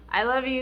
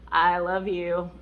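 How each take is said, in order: First: It is said curtly, with annoyance. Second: It is said warmly and affectionately. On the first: The speaker wants the other person to stop talking. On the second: The speaker sincerely expresses love.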